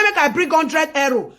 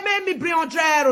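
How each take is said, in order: First: Said in the usual way. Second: Fast, raised voice, quoting a greedy demand; mock demand. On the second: Retelling a friend's call, she mocks the demand in a fast raised voice. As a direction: bark the demand out quickly.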